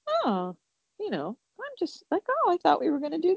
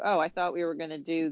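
First: The tone is relaxed and curious. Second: The tone is tense and confrontational. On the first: The speaker is simply asking what got in the way. The speaker calls it right. "if your tone is like" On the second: The speaker is accusing the other person. The speaker calls it wrong. "Totally different tone, kind of confrontational then"

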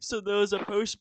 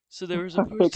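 First: It is spoken in a put-on Scottish accent. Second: It is spoken in the speaker's normal accent.

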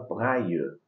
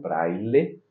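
First: The L sound is left out. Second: The L sound is clearly pronounced. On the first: "Em francês a gente fala braille, tirando os L's" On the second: "Em português a gente fala braille, falando o L"

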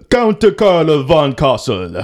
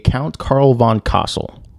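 First: It is said in a heavy, vampire-like foreign accent. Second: It is said in a plain, unaccented voice.

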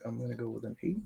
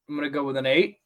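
First: It is said at a normal, conversational volume. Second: It is said loudly, projected for listeners.

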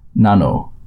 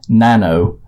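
First: The name is said with a Japanese pronunciation. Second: The name is said with an English pronunciation. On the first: "But in Japanese, it would be more like Nano" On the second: "That's like the English way of pronouncing it"

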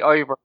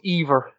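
First: The name begins with an 'eye' sound. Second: The name begins with an 'ay' sound. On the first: "but it's probably Ivor" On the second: "it's just that I pronounce the E, like, so it's Ivor"

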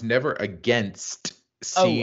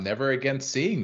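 First: The final T of 'against' is clearly pronounced. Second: The final T of 'against' is dropped. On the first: The speaker calls it right. "I had to stress that T for you" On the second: The speaker calls it wrong. "That would be my Rhode Islandese right there"

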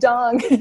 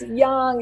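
First: The word begins with a hard 'j' sound. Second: The word begins with a soft 'y' sound. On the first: The speaker calls it wrong. "It's not like junk" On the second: The speaker calls it right. "It's young"

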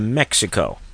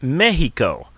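First: It is said with a plain English pronunciation. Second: It is said with a local Mexican pronunciation. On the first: The speaker calls it wrong. "I'm afraid you've got that wrong. You don't say it like that" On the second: The speaker calls it right. "that's how they pronounce it down there"

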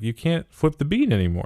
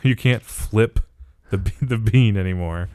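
First: The words are run together in casual speech. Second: Each word is articulated slowly and clearly.

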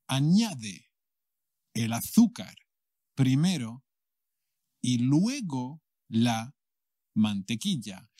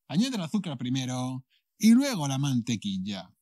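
First: It is said slowly and carefully. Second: It is said at normal speed.

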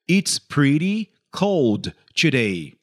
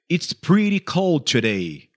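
First: It is said more slowly. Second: It is said at normal speed.

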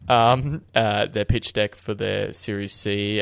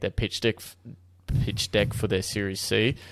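First: It is said without a New Zealand accent. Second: It is said with a New Zealand accent.

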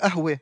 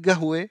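First: The word begins with a glottal stop. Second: The word begins with a hard g. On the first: The speaker is from a city such as Haifa or Jerusalem. "קוף הופכת לאלף" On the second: The speaker is Bedouin. "הבדואי יגיד גהווה"

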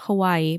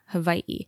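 First: The last two vowels run together without a catch. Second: A glottal catch separates the last two vowels. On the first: The speaker calls it wrong. "So not Hawaii" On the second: The speaker calls it right. "but Hawaii"

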